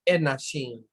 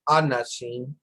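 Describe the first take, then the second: First: The first vowel is short and light. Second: The first vowel is full and strong. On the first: The speaker calls it right. "you're probably hitting this one too strongly because it's like" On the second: The speaker calls it wrong. "It's not anashim"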